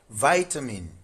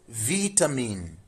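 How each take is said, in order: First: It is said with an American accent. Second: It is said with a British accent. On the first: "In U S, this is vitamin" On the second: "But in U K English, this is vitamin"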